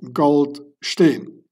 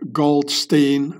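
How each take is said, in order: First: Goldstein is said with a German pronunciation. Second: Goldstein is said with an English pronunciation. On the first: The speaker calls it right. "both Gold and Stein are German words" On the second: The speaker calls it wrong. "most of you guys pronounce it wrong"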